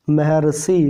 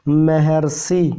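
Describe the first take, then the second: First: Said in the usual way. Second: महर्षि said very slowly, each syllable stretched, the अर drawn out; slow sounded-out word. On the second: Shown as a demonstration. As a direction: spell out महर्षि slowly so the अर is heard. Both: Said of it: "अर आ गया इसमें भी".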